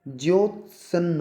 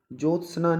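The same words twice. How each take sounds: First: ज्योत्सन्न stretched slowly, "jyot-sna"; correct pronunciation. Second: ज्योत्सना said wrongly as "jotsanan", no y; wrong pronunciation. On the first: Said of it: "ज्योत्सन्न होता है". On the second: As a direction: show the mistaken "jotsana" for ज्योत्सना. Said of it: "ज्योत्सना नहीं होता". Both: Shown as a demonstration.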